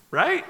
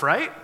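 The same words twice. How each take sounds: First: High rising right, pushing for a response; checking right. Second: Said in the usual way. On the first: Shown as a demonstration. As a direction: toss "Right?" up high to get the crowd to answer. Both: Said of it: "Okay, just making sure".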